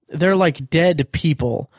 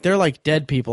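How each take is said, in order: First: The word 'dead' is strongly stressed. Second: The word 'dead' is not specially stressed.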